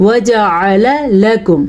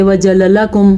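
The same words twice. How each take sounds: First: "وجعل لکم" slow and measured, the ain clearly sounded; correct Quranic articulation. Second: "وجعل لکم" rattled off with the ain swallowed; wrong run-together reading. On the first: Teacher modelling the right reading, "وجعل لکم" slow with a distinct ain. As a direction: say "وجعل لکم" slowly, each syllable separate with a clear ain. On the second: Teacher showing students the mistake, "وجعل لکم" misread with no ain. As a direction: say "وجعل لکم" quickly, gliding over the ain as a plain vowel. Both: Shown as a demonstration. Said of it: "ایسے پڑھتے نہیں".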